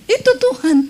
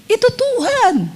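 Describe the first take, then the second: First: "itu" punched high, the rest falling away; stress on itu. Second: "Tuhan" drawn out high and slow, falling at the end; stress on Tuhan. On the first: Preacher repeating to the congregation, punching "itu". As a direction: hit "itu" hard and high. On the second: Preacher telling the congregation whose voice it is, stressing "Tuhan". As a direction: lift and hold "Tuhan", then let it fall. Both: Shown as a demonstration.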